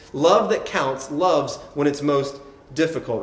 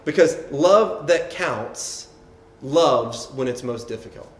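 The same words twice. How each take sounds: First: Said in the usual way. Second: Love that counts drawn out slow, each word leaned on; a slow, weighty first statement of the key line; slow emphatic line. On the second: Shown as a demonstration. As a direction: lay it down slowly, stress on love.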